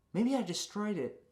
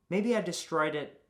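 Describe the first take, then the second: First: Wistful high take. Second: Said in the usual way. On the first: Shown as a demonstration. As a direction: lift it up, musing and dreamy.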